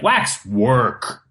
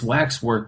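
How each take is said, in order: First: A hard stop separates the two parts. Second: The two parts flow together without a break.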